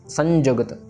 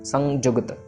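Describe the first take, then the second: The two takes are said the same way.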